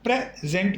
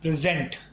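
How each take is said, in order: First: The stress is on the first syllable. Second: The stress is on the second syllable. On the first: The speaker calls it right. "यानी pray पर जोर आएगा" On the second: The speaker calls it wrong. "ना कि gent पर"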